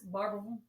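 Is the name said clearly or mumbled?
mumbled. The name is mumbled and slurred together. The speaker is a local. "if you're from Kentucky, we all know it as Barberville"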